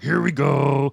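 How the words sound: The voice is deep, rough and guttural. It sounds manly. The speaker calls it right. "Dak is very guttural"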